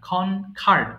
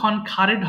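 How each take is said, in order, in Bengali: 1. এই শেষ অংশ কোনো অতিরিক্ত সিলেবল যোগ করে না। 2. এই শেষ অংশটি একটি অতিরিক্ত সিলেবল হিসেবে উচ্চারিত হয়। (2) "এটাও কিন্তু খনখারেড হবে না"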